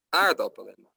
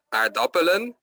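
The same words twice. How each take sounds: First: "aardappelen" with the stress on AARD; AARD-appelen, first syllable stressed; correct stress. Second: "aardappelen" with the stress moved off AARD onto a later syllable; "aardappelen" said wrongly, first syllable left unstressed. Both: Shown as a demonstration. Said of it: "de klemtoon is bijvoorbeeld, het is niet".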